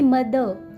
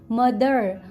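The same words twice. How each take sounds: First: The final R sound is silent. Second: The final R sound is pronounced. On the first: This is how Indians say it. "we don't pronounce last R" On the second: This is how Americans say it. "In America, people are calling"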